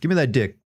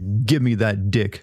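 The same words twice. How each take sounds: First: It is said at a normal speed. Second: It is said slowly and deliberately.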